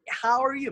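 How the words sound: It is said with the mouth wide open. The speaker calls it right. "you need to open your on your mouth"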